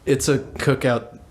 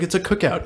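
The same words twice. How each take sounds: First: Slower, level relay; teacher relaying. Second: Higher-pitched, quick explanation; kid answering. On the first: Teacher reports to the principal by walkie-talkie, relaying. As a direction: pass it on matter-of-factly, slowly. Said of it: "He goes". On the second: Student answers the teacher's question, explaining. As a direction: offer it up lightly, pitched high. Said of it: "He's like". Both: Retold or imitated.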